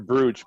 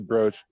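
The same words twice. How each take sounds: First: The vowel sounds like the one in 'boot'. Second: The vowel sounds like the one in 'boat'. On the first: It follows the written spelling. The speaker calls it wrong. "they spell it with two two O's here" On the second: It is the real pronunciation. The speaker calls it right. "but it's really brooch"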